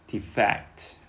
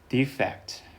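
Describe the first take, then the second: First: The stress is on the second syllable. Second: The stress is on the first syllable. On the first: It is used as a verb. "동사일 경우에는 여기" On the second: It is used as a noun. "명사일 경우에는 앞에"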